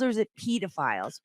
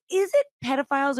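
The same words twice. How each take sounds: First: "pedophiles" with a long e, as in "peed"; long-e pronunciation. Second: "pedophiles" with a short e, as in "ped"; usual pronunciation. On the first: Host offers the other pronunciation, long-e "pedophiles". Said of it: "if you're from U K". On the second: Host asks which pronunciation is correct, short-e "pedophiles". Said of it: "What is this difference?". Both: Shown as a demonstration.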